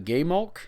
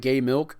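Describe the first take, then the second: First: The second syllable sounds like 'mulk'. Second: The second syllable sounds like 'milk'. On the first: The speaker calls it right. "I believe that's how you pronounce that" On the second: The speaker calls it wrong.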